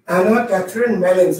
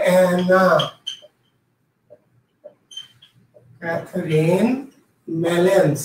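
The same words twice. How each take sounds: First: Said in the usual way. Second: Slow, low dictation with long pauses between the names. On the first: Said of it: "আবার বললাম". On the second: Shown as a demonstration. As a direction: dictate the name word by word for note-takers. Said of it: "নামটা যদি কেউ লিখে নিতে চান". (ধীরে ধীরে থেমে থেমে শ্রুতিলিখনের ভঙ্গিতে)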